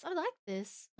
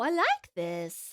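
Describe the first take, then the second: First: Soft repeat. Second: Savoring drawl. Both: Real, not acted. Reacting to the song.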